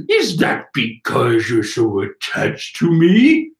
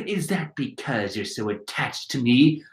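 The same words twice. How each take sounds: First: Slow, drawn-out line with a rising end; wrong character's voice. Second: Lower, softer, gentler delivery; her character voice. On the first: Reading the wrong character's line, slow theatrical voice. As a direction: play it as the villain, slow and loaded. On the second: Redoing the line as her, soft low voice. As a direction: say it quietly as the woman in the manga. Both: Acted. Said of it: "Oh, wait, no, that's her".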